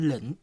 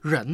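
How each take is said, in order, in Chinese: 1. 这个词开头是 l 音。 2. 这个词开头是 r 音。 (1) "会读成L 音的" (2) "带R 音的"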